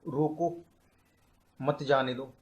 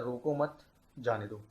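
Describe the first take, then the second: First: रोको alone, a clear pause, then मत जाने दो run together; pause after रोको. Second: रोको मत run together, a break, then जाने दो; pause after मत. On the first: Teacher showing students one of two meanings, pausing after रोको. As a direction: break after रोको, keep मत joined to जाने दो. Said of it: "इसके दो मीनिंग निकल रहे हैं". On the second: Teacher showing students the second meaning, pausing after रोको मत. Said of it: "दूसरा मतलब निकल सकता है". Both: Shown as a demonstration.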